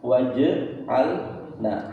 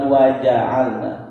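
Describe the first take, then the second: First: The middle consonant carries a full vowel. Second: The middle consonant is cut short, vowelless. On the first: The speaker calls it right. "karena dia berharokat bukan sukun" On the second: The speaker calls it wrong. "bukan waja'alna"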